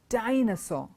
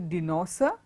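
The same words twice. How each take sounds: First: The stress falls on the expected syllable. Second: The stress falls on a misplaced syllable. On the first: The speaker calls it right. "It is a dinosaur" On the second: The speaker calls it wrong. "It's not a dinosaur"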